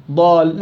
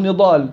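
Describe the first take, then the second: First: ضال with the ن dropped; wrong start. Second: نضال with the ن sounded first; correct start. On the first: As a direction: begin at the ض, skipping the first letter. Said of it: "بقول نضال". (نطق خاطئ يبدأ من الضاد) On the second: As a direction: say the whole name from its first letter نضال. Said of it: "ما باجي على الضاد". (نطق صحيح من أول الكلمة) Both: Shown as a demonstration.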